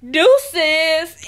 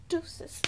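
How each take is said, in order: First: Loud, punched DEUCES in imitation; loud mock dismissal. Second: Whispered DEUCES, barely voiced; hushed mock dismissal. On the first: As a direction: throw DEUCES out loudly. Acting out her sign-off. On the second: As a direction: say DEUCES under the breath. Repeating the sign-off under breath.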